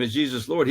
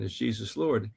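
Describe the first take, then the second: First: Said in the usual way. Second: Softly asked, a gentle interruption; gentle question. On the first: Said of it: "when I asked him". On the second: Retold or imitated. Asking the atheist professor gently, quietly. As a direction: ease in with a soft, careful question. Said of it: "tried to gently interrupt him".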